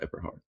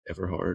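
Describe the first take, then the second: First: The middle consonant sounds like a B. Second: The middle consonant sounds like a V.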